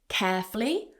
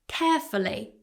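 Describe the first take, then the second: First: The word is said with two syllables. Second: The word is said with three syllables. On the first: "two syllables" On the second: "or carefully with three"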